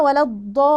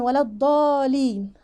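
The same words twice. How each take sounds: First: Long chanted "الضالي" with a held double l; doubled laam. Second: Short "الضالين" with one quick l; wrong single laam. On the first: Teacher lets learners hear two laams, long chant. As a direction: stretch the vowel, then lean on the l. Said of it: "اللي لازم أسمع لامين اتنين". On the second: Teacher shows the mistake to avoid, single laam. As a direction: rush past the l of "الضالين" undoubled. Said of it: "ما ينفعش أقول". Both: Shown as a demonstration.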